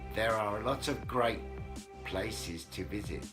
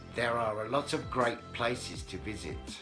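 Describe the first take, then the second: Both takes have the same delivery.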